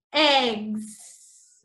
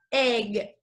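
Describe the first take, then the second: First: "eggs" said with a clear S sound at the end; plural with S. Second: "egg" said with no S at the end; singular form. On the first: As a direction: land the final S on "eggs". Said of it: "como son varios, decimos". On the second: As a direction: end "egg" cleanly, no final S sound. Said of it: "se diría sin la S". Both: Shown as a demonstration.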